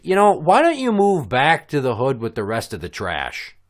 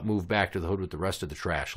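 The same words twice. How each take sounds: First: Louder, raised-pitch taunt; pointed, performed put-down; retold parting jab. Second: Said in the usual way. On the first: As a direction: throw the insult over your shoulder. Acting out his parting insult.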